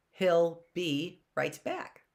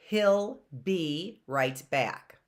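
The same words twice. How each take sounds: First: He'll be right back said slowly, rising on back; slow demo. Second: He'll be right back said slowly, the be drawn out; slow demo. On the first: Teacher repeats the sentence slowly with a rise. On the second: Teacher slowly sounds out the word be. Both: Shown as a demonstration. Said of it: "That's not like a bumblebee".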